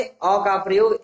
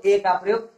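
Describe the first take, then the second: First: अ said as a short "uh"; अ as unstressed "uh"; weak article A. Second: ए said as a long "ay"; ए with a long "ay" vowel; letter-name A. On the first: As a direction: say अ with the neutral vowel, not "ay". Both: Shown as a demonstration. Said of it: "ए को हम अ भी पढ़ते हैं".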